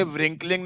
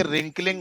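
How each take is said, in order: First: व्रिंकलिंग said with a sounded w, "vrinkling"; wrong pronunciation. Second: रिंकलिंग with the w silent, "rinkling". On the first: Teacher showing the class the wrong way, व्रिंकलिंग with a sounded w. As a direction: say व्रिंकलिंग with the w pronounced. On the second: Teacher correcting a student, रिंकलिंग with the w silent. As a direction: say रिंकलिंग starting straight on the r. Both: Shown as a demonstration. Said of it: "डब्ल्यू silent होता है".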